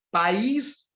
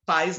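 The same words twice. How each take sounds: First: "País" in two syllables, with a long stressed í; hiatus, stressed í. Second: "país" said as one syllable, PAIS, stress on the a; diphthong, stressed a. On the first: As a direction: draw out the second syllable of "País": pa-ÍS. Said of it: "O acento agudo". ("País" com hiato, pa-ÍS bem alongado) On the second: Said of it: "não é acentuado". ("país" dito como "pais", numa sílaba só) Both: Shown as a demonstration.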